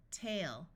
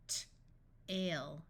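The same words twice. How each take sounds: First: Said in the usual way. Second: Crisp T, pause, then "ale"; sounded out. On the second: Shown as a demonstration. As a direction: break "T-, ale" into separate sounds. Phonics teacher sounds out, then blends.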